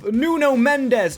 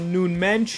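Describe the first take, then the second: First: The name is said plainly, without an accent. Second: The name is said with a foreign accent.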